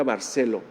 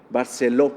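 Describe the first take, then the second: First: Said in the usual way. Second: Barceló with the stress landing on the last ó; stress on the final O. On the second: Shown as a demonstration. Pastor correcting the surname's stress for the congregation, stressing the ó. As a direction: correct himself, leaning on the ó of Barceló. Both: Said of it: "con acento en la O".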